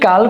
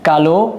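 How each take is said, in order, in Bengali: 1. শব্দটি স্বরহীন ব্যঞ্জনধ্বনিতে শেষ হয়। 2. শব্দের শেষে একটি স্বরধ্বনি উচ্চারিত হয়। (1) "যদি কাল করে উচ্চারণ করি, তখন সেটা হয়ে যাবে কাল, কোন একটা সময় নির্দেশক" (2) "বিশেষণের ক্ষেত্রে শব্দের শেষের অ উচ্চারণ করতে হবে উ এর মতো"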